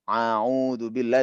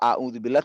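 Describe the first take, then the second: First: Every throat sound is a squeezed ain sound. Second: Every throat sound is a plain glottal stop. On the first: "itu ain semua" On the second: "tadi hamzah semua"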